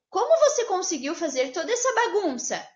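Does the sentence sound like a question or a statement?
question. It is said with a questioning tune. Someone is being asked something. "É uma pergunta"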